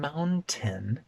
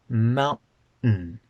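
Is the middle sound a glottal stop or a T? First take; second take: T; glottal stop. First: The middle sound is a full T. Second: The middle sound is a glottal stop. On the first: The speaker calls it wrong. "I'm not saying mountain. There's no t in that word at all" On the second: The speaker calls it right. "We say mountain"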